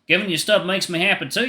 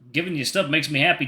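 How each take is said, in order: First: It is said in a put-on country accent. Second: It is said in the reader's plain voice.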